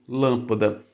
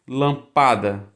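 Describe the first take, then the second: First: The stress is on the first syllable. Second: The stress is on the second syllable. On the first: The speaker calls it right. "se você quiser lâmpada, aí precisa de acento" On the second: The speaker calls it wrong. "também sendo é, paroxítona"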